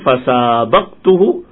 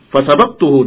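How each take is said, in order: First: The vowel after the s is long. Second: The vowel after the s is short. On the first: I raced against him. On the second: I beat him.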